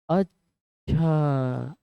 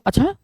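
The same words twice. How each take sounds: First: It sounds like calm understanding. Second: It sounds like sudden surprise.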